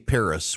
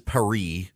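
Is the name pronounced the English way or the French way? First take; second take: English; French. First: The name is given an English pronunciation. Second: The name is given a French pronunciation. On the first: This is the usual English way of saying the name. The speaker calls it right. "We say Paris" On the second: This is the foreign way of saying the name. The speaker calls it wrong. "No one says Paris"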